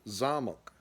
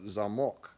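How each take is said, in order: First: The stress is on the first syllable. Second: The stress is on the second syllable. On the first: It means castle. "zamok means castle" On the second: It means lock. "which means lock"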